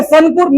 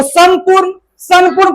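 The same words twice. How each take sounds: First: संपूर्ण as "san-poorn"; tongue-tip n before पू in संपूर्ण; wrong n sound. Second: संपूर्ण said "sam-poorn"; m sound. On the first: Teacher shows what not to read, संपूर्ण with n. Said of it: "संपूर्ण नहीं". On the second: Teacher models the rule, संपूर्ण with m. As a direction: close the lips on m before पू in संपूर्ण. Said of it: "म होता है". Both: Shown as a demonstration.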